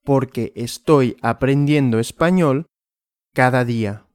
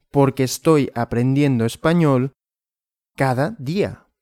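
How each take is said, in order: Both takes have the same delivery.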